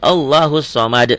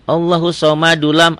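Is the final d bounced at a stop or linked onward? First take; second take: bounced; linked. First: It stops on a bounced, echoing final d. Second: The final d flows into the next word. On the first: "Terjadi kalau dihentikan" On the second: "kalau nggak berhenti"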